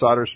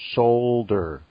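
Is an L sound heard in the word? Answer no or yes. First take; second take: no; yes. First: The word is said without an L sound. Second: The word is said with a clear L sound. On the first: "over here, it's solder smoke" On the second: "You got to get the L in there"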